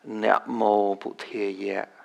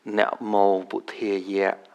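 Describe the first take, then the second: The two takes are said the same way.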